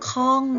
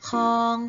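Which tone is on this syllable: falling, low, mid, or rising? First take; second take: falling; mid. First: The syllable is said with a falling tone. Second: The syllable is said with a mid tone. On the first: "ติมไม้โทลงไปจะเป็นข้อง" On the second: "เสียงสามัญจะเป็นคำว่าคอง"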